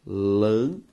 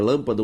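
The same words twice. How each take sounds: First: "lâmpada" split lâm... pa... da; syllable by syllable. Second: Said in the usual way. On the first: Shown as a demonstration. Teacher giving students the result of separation, syllable by syllable. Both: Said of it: "Ao separar a palavra lâmpada".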